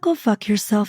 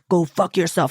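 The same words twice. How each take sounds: First: It is said in a calm, relaxed tone. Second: It is said in an angry, aggressive tone.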